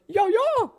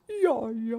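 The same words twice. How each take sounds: First: It is said in a scared tone. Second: It is said in a sad tone.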